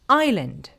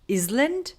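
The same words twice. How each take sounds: First: The s sound is left out entirely. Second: The s sound is pronounced in the middle. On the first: The speaker calls it right. "we do not say s sound and we just skip it" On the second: The speaker calls it wrong. "may pronounce it as island"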